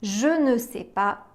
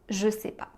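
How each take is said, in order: First: The word 'ne' is pronounced in full. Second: The word 'ne' is dropped entirely. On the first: This is the formal, written-style negation. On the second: This is the casual, spoken-style negation.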